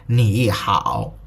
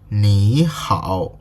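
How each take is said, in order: First: Both syllables have a dipping tone. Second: The first syllable rises; the second dips. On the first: The speaker calls it wrong. "If you read ni hao as two dipping third tones, it was like ni hao. It's weird" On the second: The speaker calls it right. "it automatically becomes ni hao"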